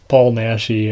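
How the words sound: The name is said with an American pronunciation.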